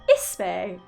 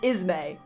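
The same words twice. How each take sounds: First: The middle consonant is a hissing s sound. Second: The middle consonant is a buzzing z sound. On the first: This is how only one person says the name. "he's the only one in this entire world that's like" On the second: This is how almost everyone says the name. "like it's spelled I Z M A Y"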